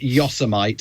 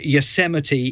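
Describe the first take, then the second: First: The word is given an altered pronunciation. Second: The word is given its usual pronunciation. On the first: This imitates someone else's mispronunciation. The speaker calls it wrong. "he pronounced it Yosemite" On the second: This is how the place name is normally said. The speaker calls it right. "instead of saying Yosemite"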